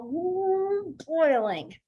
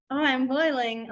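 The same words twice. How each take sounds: First: High drawn-out ooh dropping into boiling; hammed-up simmering anger; acted seething. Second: Slow, understated mock complaint; sarcastic. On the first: Teacher showing students how to sign boiling, acted seething. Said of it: "but you're gonna be like". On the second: Teacher showing students how not to sign boiling, sarcastic. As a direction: say it with no real anger behind it. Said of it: "unless you're trying to be, you know, sarcastic". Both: Shown as a demonstration.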